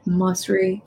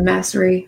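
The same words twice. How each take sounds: First: Masri with an open "ah", MAHS-ree; alternative pronunciation. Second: Masri with a short front "a", MASS-ree; alternative pronunciation. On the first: Unsure host offers a name's pronunciation, Masri as MAHS-ree. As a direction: say Masri with first vowel as in "father". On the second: Unsure host offers another pronunciation, Masri as MASS-ree. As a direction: say Masri with first vowel as in "cat". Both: Shown as a demonstration. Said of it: "I don't know if you say it".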